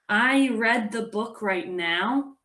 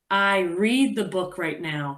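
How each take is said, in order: First: Read has a short vowel, like red. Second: Read has a long vowel, like reed. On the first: The action already happened. The speaker calls it wrong. "instead of r, e, d" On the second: The action is happening now. The speaker calls it right. "it's r, eed"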